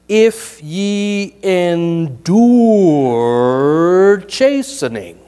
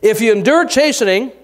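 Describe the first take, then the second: First: It is read very slowly. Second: It is read at a normal pace.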